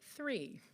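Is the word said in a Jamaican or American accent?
American. It is said in an American accent.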